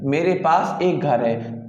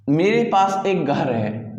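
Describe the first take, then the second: First: Slow with एक stressed. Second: Slow with मेरे stressed. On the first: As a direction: lean on एक, keep मेरे पास light. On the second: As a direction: lean on मेरे, then slow through पास एक घर है. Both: Shown as a demonstration. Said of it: "बोल रहा है कि".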